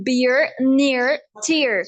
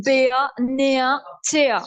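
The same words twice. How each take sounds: First: American "beer, near, tear" with sounded R; crisp single words, American R; American accent. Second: British "beer, near, tear" ending in "ah"; British accent. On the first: Teacher lists words for contrast, American accent. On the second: Teacher converts the word list, British accent. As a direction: drop each final R, British. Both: Shown as a demonstration. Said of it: "British में convert करूं".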